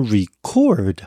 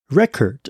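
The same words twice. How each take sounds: First: The stress is on the second syllable. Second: The stress is on the first syllable.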